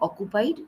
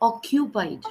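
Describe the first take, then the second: First: The k has no 'y' glide after it. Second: The k is followed by a 'y' glide. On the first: The speaker calls it wrong. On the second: The speaker calls it right. "Q sound is there"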